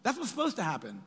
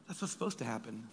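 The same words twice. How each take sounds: First: "That's what's supposed to happen" said higher and punched, with "supposed" stressed; emphatic. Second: "That's what's supposed to happen" said lower and softer, dropping away; quiet repeat. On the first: Preacher stressing how the story should go, emphatic. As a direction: hit "supposed" hard and bright. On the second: Preacher repeating the point to the congregation, quiet and rueful. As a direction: let the repeat fall soft and rueful. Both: Shown as a demonstration.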